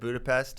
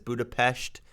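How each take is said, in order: First: Budapest is said the ordinary American way. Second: Budapest is said the local, Hungarian-style way. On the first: This is how it is said in the United States. "instead of Budapest" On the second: The speaker shows off knowing the local form. "he says Budapest"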